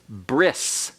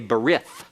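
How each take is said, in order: First: The word ends in an S sound. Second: The word ends in a TH sound. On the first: "modern Hebrew uh, pronunciation is bris" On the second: "an anglicized pronunciation that is incorrect Hebrew"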